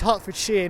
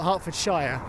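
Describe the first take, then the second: First: The ending is pronounced like 'shear'. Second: The ending is pronounced like 'shire'. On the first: The speaker calls it right. "It's Shear, as in like you know a pair of garden shears. That's how we pronounce it" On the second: The speaker calls it wrong.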